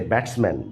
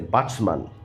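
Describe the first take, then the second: First: It is said with a standard British accent. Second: It is said with a West Indian accent.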